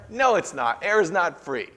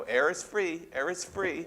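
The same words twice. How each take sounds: First: Louder, higher indignant no; cranky protest. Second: Sing-song taunting air is free; teasing sibling taunt. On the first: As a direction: grumble like a cranky old person. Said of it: "And I go". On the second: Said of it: "put your finger an inch from their face and go". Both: Retold or imitated.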